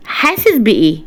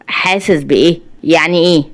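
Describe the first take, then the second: First: Said in the usual way. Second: Mildly baffled echo question, rising; puzzled. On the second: A narrator's reading. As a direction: ask it back with a touch of bewilderment. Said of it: "شريف باستغراب". (باستغراب)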